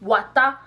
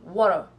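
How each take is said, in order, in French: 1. Il est prononcé avec un accent pidgin anglais. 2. Il est prononcé avec un accent anglais américain. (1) "en pidgin" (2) "en anglais américain, on dit water"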